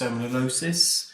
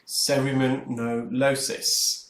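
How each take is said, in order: First: The word is said at normal speed. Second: The word is said slowly, syllable by syllable.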